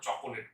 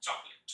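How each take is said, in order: First: চকোলেট with a middle o, cho-ko-let; three syllables in চকোলেট; wrong pronunciation. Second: চকলেট in two syllables, chok-let; short chok-let for চকলেট; correct pronunciation. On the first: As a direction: sound the extra o in চকোলেট. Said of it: "ভুল করে আমরা চকোলেট বলবো না". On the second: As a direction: drop the middle vowel of চকলেট. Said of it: "আমরা বলবো চকলেট". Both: Shown as a demonstration.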